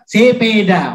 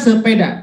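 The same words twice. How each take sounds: First: It is said in a Batak regional accent. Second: It is said in a standard Indonesian accent. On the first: This is how Batak people say it. "kalau mereka" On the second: This is how we say it.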